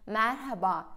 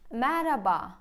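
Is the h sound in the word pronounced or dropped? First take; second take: pronounced; dropped. First: The h sound is clearly pronounced in the word. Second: The h sound is dropped from the word. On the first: "Orada H harfi var. Neden merhaba demiyorsunuz?" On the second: "Mesela merhaba diyorsunuz"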